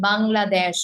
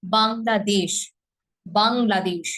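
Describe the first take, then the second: First: বাংলাদেশ with the vowel too open; বাংলাদেশ said with a careless দেশ; wrong pronunciation. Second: বাংলাদেশ with a clean e vowel in দেশ; বাংলাদেশ, দেশ as a clear closed e; correct pronunciation. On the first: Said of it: "না, এটা দেশ না". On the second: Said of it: "একার রূপে উচ্চারিত হবে". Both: Shown as a demonstration.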